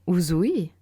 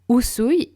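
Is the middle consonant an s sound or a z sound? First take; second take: z sound; s sound. First: The middle consonant is a buzzing z sound. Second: The middle consonant is a hissing s sound. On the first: The speaker calls it wrong. "et non Uzui" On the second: The speaker calls it right. "Usui et non Uzui"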